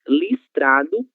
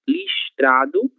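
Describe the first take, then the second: First: The s before t sounds like s. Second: The s before t sounds like sh. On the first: "o som da própria letra S" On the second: "o som parecido com a letra X"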